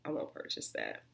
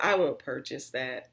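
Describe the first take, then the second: First: Whispered, half to herself. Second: Said in the usual way. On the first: Real, not acted. Telling viewers she won't rebuy the cleanser, in a whisper. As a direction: breathe the verdict with no voice.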